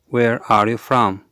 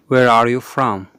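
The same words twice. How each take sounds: The two takes are said the same way.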